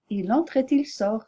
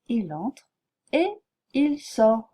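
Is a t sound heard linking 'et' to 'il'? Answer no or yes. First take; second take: yes; no. First: A t sound links et and il. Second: No t sound links et and il. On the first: The speaker calls it wrong. "Je ne peux pas dire, ... C'est très incorrect" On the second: The speaker calls it right. "Je dis"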